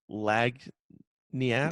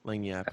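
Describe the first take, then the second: First: It is said with a hard g, 'lag-nee-ap'. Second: It is said without a hard g, 'lan-yap'. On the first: The speaker calls it wrong. "I'm gonna say this wrong" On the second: The speaker calls it right. "that sounds better than what I said"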